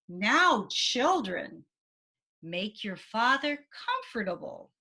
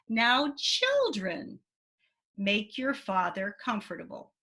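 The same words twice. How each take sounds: First: Now, children is said commandingly, giving direction. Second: Children is said lovingly, with a pause after.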